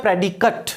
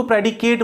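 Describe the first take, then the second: First: "प्रेडिकेट" ending in schwa plus T, not "kate"; correct noun pronunciation. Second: "प्रेडिकेट" ending to rhyme with "late"; common mispronunciation. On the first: Teacher models the right pronunciation for students, "प्रेडिकेट" ending "-kut". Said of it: "इसका pronunciation होता है". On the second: Teacher quotes many people's mistake, "प्रेडिकेट" ending "-kate". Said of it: "कई लोग उसको ... बोल देते हैं". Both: Shown as a demonstration.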